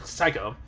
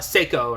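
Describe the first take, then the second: First: The first syllable rhymes with 'sigh'. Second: The first syllable rhymes with 'say'. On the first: "the proper pronunciation would be Psycho" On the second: "I always feel like Seiko sounds better"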